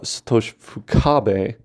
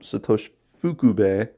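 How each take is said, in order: First: The surname's middle vowel is not oo. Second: The surname's middle vowel is an oo sound. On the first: The speaker calls it wrong. "the name of his corn cob shaped brother" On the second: The speaker calls it right. "with an oo sound in the middle"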